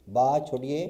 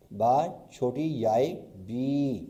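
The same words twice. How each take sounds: First: Said in the usual way. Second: Slow, deliberate: با چھوٹی یائے, then بی; slow spelling out. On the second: Shown as a demonstration. Teacher to students, slowly spelling بی. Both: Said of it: "صحیح لکھنے کا طریقہ".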